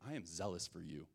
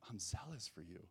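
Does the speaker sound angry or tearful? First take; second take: angry; tearful. First: It is said in an angry, frustrated tone. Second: It is said in a broken, tearful tone. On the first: The speaker is indignant and demanding answers. "Elijah was angry with the Lord" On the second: The speaker is defeated and has finally had enough. "like a broken puppy ... saying it through tears"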